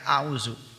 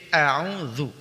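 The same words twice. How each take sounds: First: The middle consonant is a buzzing z sound. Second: The middle consonant is a soft dh sound. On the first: The speaker calls it wrong. "Jangan sampai" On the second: The speaker calls it right.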